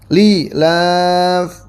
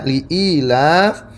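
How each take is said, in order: First: The glottal stop is dropped, long i kept. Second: Both the glottal stop and long i are kept. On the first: "Yang ketiga itu dengan membuang hamzah" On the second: "Yang pertama seperti biasa li'ilafi hamzah iya dibaca"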